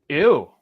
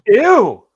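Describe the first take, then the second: First: A short, quiet, mildly disgusted ew. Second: A louder, more disgusted ew. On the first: An instant first reaction. "It was just an instant ooh" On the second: A reaction after thinking about it briefly. "hitting you with a larger ooh"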